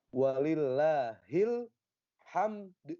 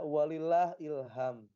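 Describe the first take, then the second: First: The phrase ends on a bounced d sound. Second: The phrase ends on an m sound. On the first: The speaker calls it right. "Karena di situ qalqalah, maka harus ada pantulan" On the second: The speaker calls it wrong. "Ada yang membaca walillah ilham"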